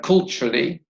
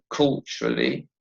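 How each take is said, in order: First: Said in the usual way. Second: "culturally" in three syllables, dropped low; "culturally" measured out, low and falling. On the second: Shown as a demonstration. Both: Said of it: "has three syllables".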